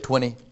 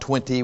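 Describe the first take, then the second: First: The t after the n is dropped entirely. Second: The t after the n is clearly pronounced. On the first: The speaker calls it right. "we say 20. T-W-I-N-N-E-Y" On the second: The speaker calls it wrong. "Not 20"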